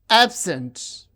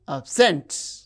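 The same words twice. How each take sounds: First: The stress is on the first syllable. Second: The stress is on the second syllable. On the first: It is used as an adjective. "the stress is on the first syllable when the word is used as noun or adjective" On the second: It is used as a verb. "the stress is on the second syllable when the word functions as a verb"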